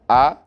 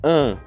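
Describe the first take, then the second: First: The vowel is oral, with no nasal sound. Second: The vowel is nasal, sounding through the nose.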